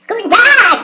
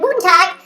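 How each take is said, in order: First: It is said in an altered, put-on voice. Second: It is said in the usual natural voice. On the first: "Heute mal in einer etwas anderen Stimmlage" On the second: "Und jetzt nochmal in normaler Stimmlage"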